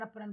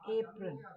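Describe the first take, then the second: First: The first vowel is a short 'uh' sound. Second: The first vowel is a long 'ay' sound. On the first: The speaker calls it wrong. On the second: The speaker calls it right.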